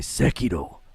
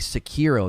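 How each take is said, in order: First: It is said with crisp, bouncing Japanese consonants. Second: It is said with flat English-style consonants. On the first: The speaker calls it right. "they say Sekiro. Like that's just awesome" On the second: The speaker calls it wrong. "they don't say Sekiro"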